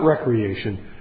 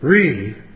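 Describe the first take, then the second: First: It is said as one word, recreation. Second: It is said as re- plus creation. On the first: Leisure or amusement. The speaker calls it wrong. "not recreation" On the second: Being created anew. The speaker calls it right. "salvation by God is recreation"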